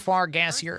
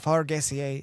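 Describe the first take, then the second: First: The name is said the plain English way. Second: The name is said with a French-style pronunciation. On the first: It sounds like a fart joke. "It is a fart joke" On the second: It sounds like a fancy French name. "you can pronounce it uh, Far Gassier if you would like to. I will be French"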